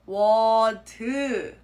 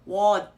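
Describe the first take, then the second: First: The final consonant becomes a whole extra syllable. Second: The final consonant is not fully pronounced. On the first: "pronounce it as a whole new syllable" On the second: "not pronounce the uh, last consonant sound completely"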